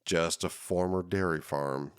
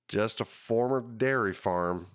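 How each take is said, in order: First: Said in the usual way. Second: Put-on southern accent. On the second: Host quoting the county director Bob in a mild southern accent. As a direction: quote the developer with a lazy southern twang on "dairy". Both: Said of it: "I don't know why I just used that kind of accent".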